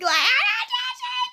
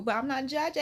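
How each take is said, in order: First: Squealed "judging", very high and drawn out; hammed-up high-pitched protest; mock disclaimer. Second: Said in the usual way. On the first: Exaggerated repeat of disclaimer.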